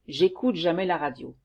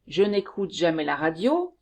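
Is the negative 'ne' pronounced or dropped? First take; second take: dropped; pronounced. First: The negative 'ne' is dropped before the verb. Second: The negative 'ne' is pronounced before the verb.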